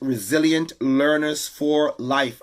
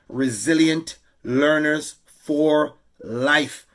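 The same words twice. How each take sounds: First: The phrase is said at a normal speed. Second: The phrase is said slowly and deliberately.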